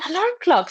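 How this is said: It is said in an eager, happy tone. The speaker looks forward to something nice. "they are expecting something nice to happen"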